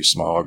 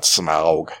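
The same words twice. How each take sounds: First: The name sounds like the word 'smog'. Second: The name does not sound like 'smog'. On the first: The speaker calls it right. "Which makes more sense, since it's a fucking dragon that breathes spoken fire" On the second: The speaker calls it wrong. "and not Smaug"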